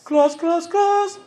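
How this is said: It is said in a queen's voice. "Queen's voice"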